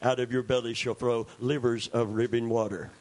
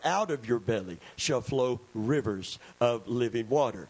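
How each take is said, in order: First: The phrase is rushed out very quickly. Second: The phrase is spoken at a normal, steady pace. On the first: The speaker calls it wrong. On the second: The speaker calls it right.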